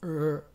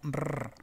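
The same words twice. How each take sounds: First: The R has the tongue curled back, untouching. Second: The R is made the Spanish way. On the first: "Y esta es R" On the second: "la R del español sería R"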